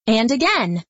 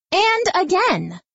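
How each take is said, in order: First: Said in the usual way. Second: "again" lifted higher than the last; pitched up. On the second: A narrator's reading. Narrator building the refrain, pitched higher. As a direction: build the repeat upward.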